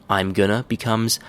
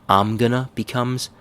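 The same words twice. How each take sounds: No difference in how they are said.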